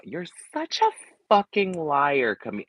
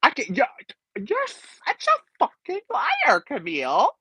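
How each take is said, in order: First: High, slow dramatic accusation; imitating a Housewife. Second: Very high, slow, gagged squeal; stunned, shrill reality TV accusation; imitating a stunned Housewife. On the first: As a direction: squeal it like a reality star. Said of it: "I wish she would have delivered it better". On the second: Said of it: "And she's like".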